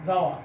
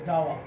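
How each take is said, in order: The two takes are said the same way.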